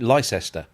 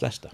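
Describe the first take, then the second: First: Every letter of the spelling is sounded out. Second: The middle syllable is dropped, said as two syllables. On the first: It helps to remember the spelling. "I always say it phonetic" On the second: This is how the name is actually said. "but it's just Leicester"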